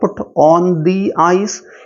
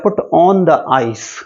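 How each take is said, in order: First: The word 'the' is said as 'thee'. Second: The word 'the' is said as 'thuh'. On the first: The speaker calls it right. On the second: The speaker calls it wrong.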